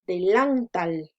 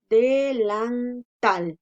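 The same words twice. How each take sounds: First: Delantal misstressed on lan, de-LAN-tal; wrong stress on middle syllable. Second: Delantal slowly split, de-lan-TAL, strongest on tal; correct stress on last syllable. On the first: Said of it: "supongamos que la mayor fuerza de voz la hiciéramos en la sílaba lan". (delantal con acento equivocado en lan, de-LAN-tal) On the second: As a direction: draw out delantal by syllables and land loudly on tal. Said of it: "Y no es así". (delantal lento, con acento en la última, de-lan-TAL) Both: Shown as a demonstration.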